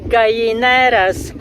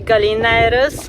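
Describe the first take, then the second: First: The double L is said as a Y sound. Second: The double L is said as an L sound. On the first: "double L in Spanish is pronounced as a E" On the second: "that's the English pronunciation"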